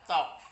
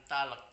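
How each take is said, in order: First: "talk" said as "tok", no L; "talk" pronounced like "tawk"; silent L in talk. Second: "talek" with the L sounded, two syllables; wrong reading of talk as "talek"; mispronounced talk. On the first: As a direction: leave the L out of "talk". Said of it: "bacanya talk". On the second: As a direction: sound every letter as "ta-lek". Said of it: "Bukan talek". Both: Shown as a demonstration.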